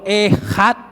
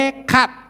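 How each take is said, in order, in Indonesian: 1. Huruf tengahnya bunyi h berdesah. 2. Huruf tengahnya bunyi k keras. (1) "Yang betul ehad" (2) "Ekat itu salah"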